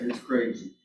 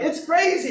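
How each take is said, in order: First: It is said without enthusiasm. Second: It is said with excitement.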